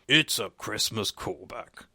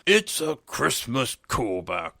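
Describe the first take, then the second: First: It is said plainly, with little energy. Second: It is said with more energy and oomph.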